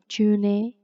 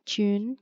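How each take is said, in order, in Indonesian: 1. Diucapkan dengan cara baca gaya Indonesia. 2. Diucapkan dengan pelafalan Inggris. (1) "Not June" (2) "but June"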